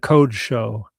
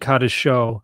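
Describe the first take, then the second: First: The first vowel is an 'o' sound. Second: The first vowel is an 'a' sound. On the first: The speaker calls it right. "I would have defaulted to" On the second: The speaker calls it wrong. "You you pronounced the last word"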